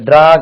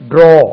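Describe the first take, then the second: First: The vowel sounds like 'ah'. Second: The vowel sounds like 'oh'. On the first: The speaker calls it wrong. "அது ட்ரா கிடையாது" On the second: The speaker calls it right.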